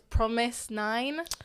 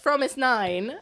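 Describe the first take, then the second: First: The name begins with a P sound. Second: The name begins with an F sound.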